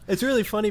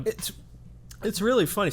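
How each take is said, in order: First: Laughing through the words. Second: Talking through a mouthful; choking on granola mid-sentence; choking on food. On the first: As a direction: laugh it out after coughing. Recovering from choking, laughing. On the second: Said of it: "Sorry, I'm choking on my granola bar". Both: Real, not acted.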